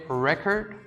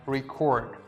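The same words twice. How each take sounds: First: The stress is on the first syllable. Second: The stress is on the second syllable. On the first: It is a noun meaning a kept history. "the story is totally different" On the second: It is the verb. "I'm putting the stress on the second part of the word"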